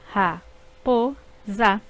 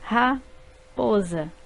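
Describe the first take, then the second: First: Ra-po-za said slowly in three separate beats; syllables split apart, slow. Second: Said in the usual way. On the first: Shown as a demonstration. Teacher slowly dividing ra-po-za for pupils. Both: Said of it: "Eu abro a boca três vezes".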